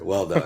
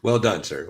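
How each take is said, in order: First: Laughing through the words. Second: Said in the usual way. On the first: Real, not acted. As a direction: let a laugh break into it.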